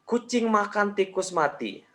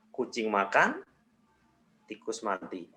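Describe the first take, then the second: First: It is said with no pause at all. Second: There is a pause after "makan". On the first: "tanpa jeda" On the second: "jedanya diganti di setelah makan"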